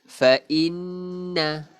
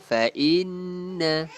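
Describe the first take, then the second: The two takes are said the same way.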